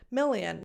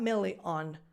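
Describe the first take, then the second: First: The second syllable has a weak schwa vowel. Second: The second syllable has a full, clear vowel. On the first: The speaker calls it right. "You have to fill the gap between a vowel sound and a consonant sound" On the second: The speaker calls it wrong. "not million"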